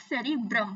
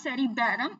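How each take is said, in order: First: "cerebrum" with a short closed "brum" ending; corrected pronunciation of cerebrum. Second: "cerebellum" with a stretched open vowel after the b, as a wrong reading; mispronounced cerebrum. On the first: Teacher correcting the misreading for students, cerebrum said as "seri-brum". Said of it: "इसको सेरिबैरम मत पढ़ना". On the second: Teacher showing students what not to say, mispronounced cerebrum. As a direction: say "cerebellum" as the misreading "seri-bai-ram". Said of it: "it's not cerebellum". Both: Shown as a demonstration.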